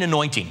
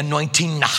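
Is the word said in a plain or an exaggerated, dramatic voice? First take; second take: plain; exaggerated. First: It is said in a plain, ordinary voice. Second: It is said in an exaggerated, dramatic voice. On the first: It is just an ordinary word. The speaker calls it right. "Rather than just saying anointing, as you and I do here tonight" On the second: It sounds like something mysterious and special. The speaker calls it wrong. "they make it a really weird thing, first of all, by the way they say the word"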